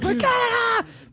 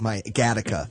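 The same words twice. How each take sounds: First: Long, very high hammed-up yell; mock battle cry. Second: Said in the usual way. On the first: Comic telling of getting kicked out shirtless, mock high yell. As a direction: wail it out in a drawn-out mock cry.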